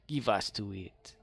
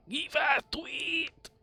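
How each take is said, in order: First: Said in the usual way. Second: High, slow goofy voice; silly high voice. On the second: Shown as a demonstration. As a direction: stretch it out in a squeaky voice. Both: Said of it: "Instead of give it".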